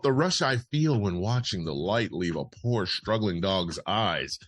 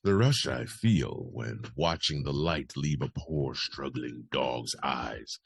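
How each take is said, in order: First: Brisk newsreader delivery of a quote; news read. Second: Sinister confession. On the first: Host reads Corden's quote as news, news read. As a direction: read it out evenly like copy. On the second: Host restarts the parody quote in character, sinister confession. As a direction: relish it darkly, drawing out the words. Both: Acted. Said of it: "I should be reading this differently".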